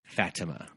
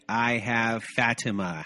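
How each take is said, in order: First: Said in the usual way. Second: Fatima said slowly with a light Spanish accent. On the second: Shown as a demonstration. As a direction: try a Spanish Fatima, slow and careful. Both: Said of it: "was my Spanish accent on that one".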